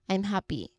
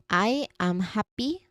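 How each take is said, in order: First: The M glides straight into happy. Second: Each word is said separately and distinctly. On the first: "Where the sounds just glide into each other" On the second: "This is said very distinctly"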